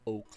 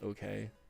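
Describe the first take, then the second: First: The name is said with one syllable. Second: The name is said with two syllables. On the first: This is the actual name. The speaker calls it right. "you pronounced it like oak, like the oak tree" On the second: This is how it was misheard in childhood. The speaker calls it wrong. "when I was a kid, I thought his name was okay"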